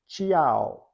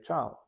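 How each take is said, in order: First: An 'ee' vowel sounds between ch and a. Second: The ch goes straight into the a vowel. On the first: The speaker calls it wrong. "if we were to pronounce it as we spell it" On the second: The speaker calls it right. "We go straight from the affricate sound ch to the vowel sound a"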